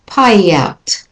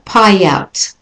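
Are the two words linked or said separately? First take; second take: linked; linked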